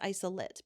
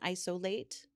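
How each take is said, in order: First: It is pronounced the way the noun sounds. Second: It is pronounced the way the verb sounds. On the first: The speaker calls it right. "It's isolate because it's the noun instead of the verb" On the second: The speaker calls it wrong. "rather than isolate"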